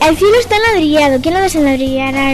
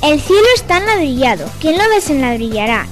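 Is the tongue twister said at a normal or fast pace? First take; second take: fast; normal. First: It is said at a faster speed. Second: It is said at a normal speed.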